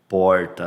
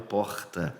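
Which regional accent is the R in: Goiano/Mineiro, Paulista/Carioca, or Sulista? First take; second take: Goiano/Mineiro; Paulista/Carioca. First: The R is said the Goiano or Mineiro way. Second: The R is said the Paulista or Carioca way.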